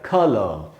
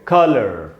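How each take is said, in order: First: The word ends without any r sound. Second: The word ends with a curled-tongue r sound. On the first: "British में पढ़ा जाएगा कलर" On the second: "American बोलेंगे कलर"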